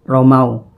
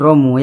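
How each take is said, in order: First: The word ends in an 'au' sound. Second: The word ends in a plain 'u' vowel. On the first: The speaker calls it right. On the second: The speaker calls it wrong. "bukan romu ya"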